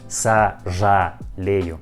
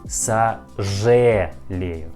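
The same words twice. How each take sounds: First: The vowel after 'zh' sounds like a full 'a'. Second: The vowel after 'zh' sounds like 'e'. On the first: The speaker calls it wrong. "not сожалею. It isn't correctly" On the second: The speaker calls it right. "we pronounce this letter like е"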